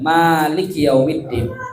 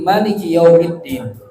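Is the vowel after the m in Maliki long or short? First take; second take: long; short. First: The vowel after the m is long. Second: The vowel after the m is short. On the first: "Mimnya panjang" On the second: "Mimnya pendek"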